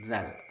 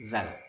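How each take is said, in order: First: It starts with a voiced 'th' sound, tongue between teeth. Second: The same.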